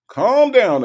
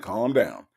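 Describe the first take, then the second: First: High, loud teasing Calm down; mock exasperated cry. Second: Said in the usual way. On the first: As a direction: shout Calm down up high, playfully. Repeats calm down, much higher.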